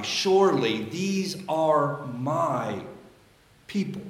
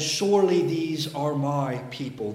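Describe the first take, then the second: First: Slow, leaning on the word "my" with a pause before "people."; slow read with "my" stressed and a beat before "people". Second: Said in the usual way. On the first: Shown as a demonstration. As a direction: give "my" the weight, slowly. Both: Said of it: "The emphasis must be on my".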